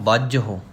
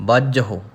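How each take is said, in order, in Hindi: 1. यह शब्द 'h' और फिर 'u' से खत्म होता है। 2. यह शब्द 'h' और फिर 'u' से खत्म होता है।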